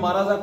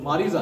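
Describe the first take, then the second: First: The vowel after the r is 'a'. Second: The vowel after the r is 'i'. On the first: The speaker calls it wrong. "अरबी में माराजा कोई लफज नहीं है" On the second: The speaker calls it right. "मारिजा है"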